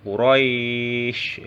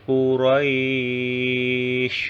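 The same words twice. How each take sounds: First: The long vowel is held for four beats. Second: The long vowel is held for six beats. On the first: "Atau empat harokat ya" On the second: "ini dibaca panjang ya, enam harokat"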